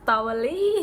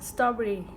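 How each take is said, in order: First: The pitch rises high on the last syllable. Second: The pitch falls on the last syllable. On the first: The speaker calls it wrong. "ลี่นี่ขึ้นไปข้างบนเลยนะ" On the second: The speaker calls it right. "คือมันจะโทนลงอยู่แล้ว"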